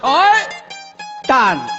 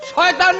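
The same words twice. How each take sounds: First: The word is said as two separate parts. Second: The word is said as one smooth unit. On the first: The speaker calls it right. "নাম হলো শয়তান" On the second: The speaker calls it wrong. "শয়তান না"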